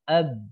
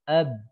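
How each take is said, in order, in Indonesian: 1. Bibir menutup, jadi bunyi b terdengar. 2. Bibir menutup, jadi bunyi b terdengar.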